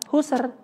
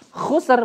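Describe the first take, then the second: First: It starts with a soft, breathy H. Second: It starts with a harsh, raspy throat sound. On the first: The speaker calls it wrong. "bukan husr. Biasanya kita ganti jadi ha" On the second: The speaker calls it right. "Jadi kasarin aja kayak ada dahak-dahaknya"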